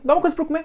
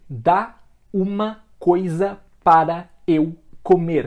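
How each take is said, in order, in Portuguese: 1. As palavras são emendadas e contraídas. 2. Cada palavra é pronunciada separadamente e por completo. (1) "A gente contrai tudo em um único som" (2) "a gente não fala pausadamente cada palavra bonitinho"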